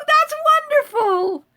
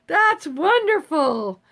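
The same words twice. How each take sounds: First: High, slow, sing-song that's wonderful; delighted exclaim. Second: Said in the usual way. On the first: Real, not acted. Thrilled reply to a viewer who made jam, sung out high. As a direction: stretch it out high with real delight.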